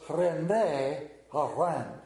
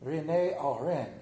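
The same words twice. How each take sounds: First: Slow, drawn-out French-accented René Arend. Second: French accent. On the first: Preacher testing his French on the chef's name, slow French accent. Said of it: "does that got a French accent to it?". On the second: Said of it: "That's kinda close to it". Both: Shown as a demonstration.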